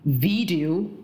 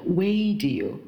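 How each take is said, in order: First: The V is made with teeth on the lip. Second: The V is made without teeth on the lip. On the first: The speaker calls it right. "比如说video" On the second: The speaker calls it wrong. "不是video"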